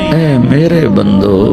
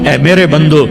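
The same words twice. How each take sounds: First: It is said in a warm, tender tone. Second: It is said in a plain, unaffectionate tone. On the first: The speaker calls it right. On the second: The speaker calls it wrong.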